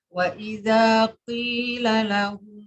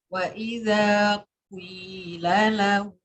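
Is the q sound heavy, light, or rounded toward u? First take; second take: heavy; rounded. First: The q sound is thick and heavy. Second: A brief u sound glides into the i. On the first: "Yang pertama itu qafnya tafkhim" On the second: "Yang ketiga itu isma"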